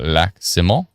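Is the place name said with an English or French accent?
French. It is said with an attempted French accent.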